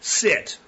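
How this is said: It is said as a firm command.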